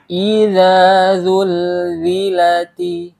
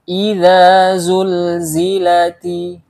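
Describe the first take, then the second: First: Both key consonants are said as a dh sound. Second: A dh sound comes first, then a z sound. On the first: The speaker calls it wrong. "Atau sebaliknya, huruf za kita baca dengan huruf za" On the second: The speaker calls it right. "Yang benar adalah yang pertama huruf za, yang kedua huruf za"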